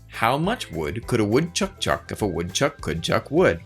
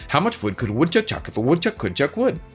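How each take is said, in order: First: It is said at a moderate pace. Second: It is said at a very fast pace.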